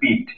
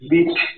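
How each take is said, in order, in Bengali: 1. শেষের ব্যঞ্জনটি অল্পপ্রাণ, সাধারণ t। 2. শেষের ব্যঞ্জনটি মহাপ্রাণ, একটু বাড়তি শ্বাস সহ। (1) "অনেকে বলে পিঠ, ট উচ্চারণ করে" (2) "এভাবে করে উচ্চারণটা করতে হবে, একটু পেশা দিতে হবে"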